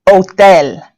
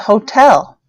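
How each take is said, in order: First: The h at the start is silent. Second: The h at the start is pronounced. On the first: The speaker calls it right. "And then the silent H" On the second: The speaker calls it wrong. "No, it's not the hotel"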